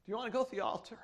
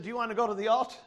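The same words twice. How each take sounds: First: Hushed, tender retelling of a mother's invitation; gentle retold question. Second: Said in the usual way. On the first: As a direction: softly repeat the mother's question. Mother's question repeated gently after pause.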